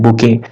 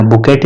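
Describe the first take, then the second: First: बुके as boo-KAY with no t at the end; correct pronunciation. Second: बुकेट with a clear final t sound, the wrong way; wrong pronunciation. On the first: Teacher giving students the right form, बुके with the t silent. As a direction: say बुके ending on the vowel, no t. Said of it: "pronunciation पे ध्यान देना". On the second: Teacher showing students the mistake to avoid, बुकेट with a hard t. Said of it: "बुकेट नहीं बोलते हैं". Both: Shown as a demonstration.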